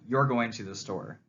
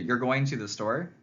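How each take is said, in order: First: The voice falls at the end. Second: The voice rises at the end. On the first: It is a statement of fact. "that sounds like I'm making a declaration" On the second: It is a question. "that may be conveyed as I'm asking you a question"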